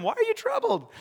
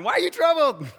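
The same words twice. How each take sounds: First: Lightly amused, high-pitched question; smiling question. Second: High, loud, playful question; smiling, teasing. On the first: Jesus asking his frightened disciples, smiling. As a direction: ask it high, with a smile. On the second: Jesus to his terrified disciples, smiling and amused. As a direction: call it out through a big smile. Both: Acted. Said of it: "I think he was smiling".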